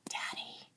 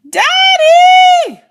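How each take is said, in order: First: It is said very quietly. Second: It is yelled as loud as possible.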